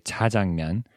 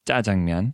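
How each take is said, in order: First: "차장면" with a plain unaspirated ch; "차장면" with a plain ch instead of tense jj; wrong pronunciation. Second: "짜장면" with a tense jj sound; "짜장면" starting on a tight tense jj; right pronunciation. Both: Shown as a demonstration. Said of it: "instead of".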